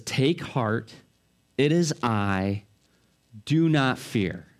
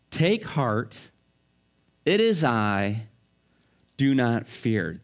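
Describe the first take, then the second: First: Slow, low, steady comfort; calm reassurance. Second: Gentle repeat of comfort. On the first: Jesus calms disciples frightened in the boat. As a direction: soothe the terrified men. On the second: Jesus repeats comfort to the terrified disciples. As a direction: let the words settle gently. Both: Acted. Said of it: "Jesus' voice rings out".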